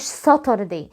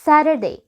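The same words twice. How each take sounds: First: The middle t is a full, crisp t. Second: The middle t is a soft, light tap.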